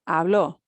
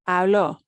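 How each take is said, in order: Both takes have the same delivery.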